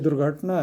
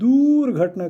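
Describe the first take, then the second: First: The first vowel is a short u sound. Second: The first vowel is a long u sound. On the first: The speaker calls it right. "छोटा ऊ लगाते हैं तो दुर्घटना" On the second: The speaker calls it wrong. "हम लोग दूर घटना कहते हैं, नहीं दूर घटना नहीं है"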